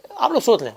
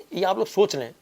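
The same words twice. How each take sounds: First: آپ لوگ سوچ لیں pressed out higher and louder; emphatic repeat. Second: Said in the usual way. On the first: Real, not acted. Host urging viewers: آپ لوگ سوچ لیں said higher and louder.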